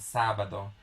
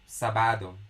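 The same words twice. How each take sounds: First: The stress is on the first syllable. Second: The stress is not on the first syllable. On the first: The speaker calls it right. "there's an emphasis that is put on top of the sa" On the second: The speaker calls it wrong. "If we don't put the accent on top of a on the syllable of sa, it would be pronounced as sabado"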